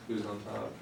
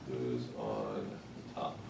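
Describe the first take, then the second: First: Said in the usual way. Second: Low, drawn-out Who's on top; slow and low, like a comedy setup; comedy-bit delivery. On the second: Pretend. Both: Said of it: "Wasn't that an Abbott and Costello act?".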